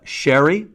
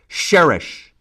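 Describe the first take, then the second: First: It is said the English way, as sherry. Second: It is said the Arabic way, ending in sh. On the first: "the British pronunciation"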